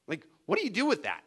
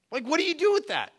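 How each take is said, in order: First: Said in the usual way. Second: Much higher, pleading repeat; incredulous repeat. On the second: Shown as a demonstration. Preacher asking the congregation again, higher and incredulous. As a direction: push the question up in disbelief. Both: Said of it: "repeated with rising emphasis".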